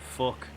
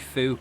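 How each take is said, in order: First: The vowel sounds like the one in 'luck'. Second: The vowel sounds like the one in 'book'. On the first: This is how the speaker really says it. The speaker calls it right. "I say you fuck" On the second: This is the stereotyped Irish pronunciation. The speaker calls it wrong. "if I say fook, it sounds weird"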